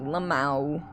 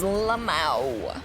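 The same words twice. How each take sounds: First: "Lamau" said as one word, luh-MAO, rising. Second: "Lamau" said as one word, luh-MAO, falling. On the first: Shown as a demonstration. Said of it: "every time I see L M A O". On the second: Retold or imitated. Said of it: "Yes, I said Lamau".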